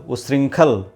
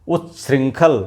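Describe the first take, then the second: The two takes are said the same way.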